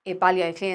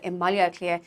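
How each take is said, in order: First: "Baile Clé" said with her own Dublin sounds; Dublin pronunciation. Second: "Maile Clé" with the initial B softened to an M sound; proper Irish pronunciation. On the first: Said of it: "if I say". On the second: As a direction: say "Maile Clé" with the softened M as a careful speaker would. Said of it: "instead of". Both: Shown as a demonstration.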